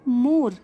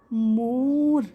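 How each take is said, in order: First: Said in the usual way. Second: "मोर" stretched on a long, level vowel; teacher slowly stretching "मोर"; drawn-out pronunciation. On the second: Shown as a demonstration. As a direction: hold the o in "मोर", ending without an e sound. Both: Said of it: "जो ई letter है इसकी sound यहाँ पे".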